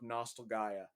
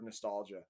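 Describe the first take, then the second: First: The ending sounds like the name Gaia. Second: The ending sounds like the word nostalgia. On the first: The speaker calls it right. "It's Nostal G A I A Gaia" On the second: The speaker calls it wrong. "It's not called the last hero of Nostalgia. We've been saying it wrong for years"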